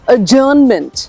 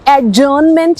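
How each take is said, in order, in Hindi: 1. j से पहले कोई d की ध्वनि नहीं बोली जाती है। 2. j से पहले d की ध्वनि बोली जाती है। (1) "और इसी तरह से अजर्नमेंट" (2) "इट्स नॉट एडजर्नमेंट"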